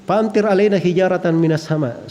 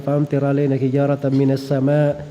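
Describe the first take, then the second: First: It stops at the end of the phrase. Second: It runs on into the rest of the verse. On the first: The reciter seems to be asking for stones to rain down. The speaker calls it wrong. "dia baca sampai pertengahan. Terus dia balik sedikit" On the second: The verse is read as one complete unit. The speaker calls it right. "Begitu ayatnya"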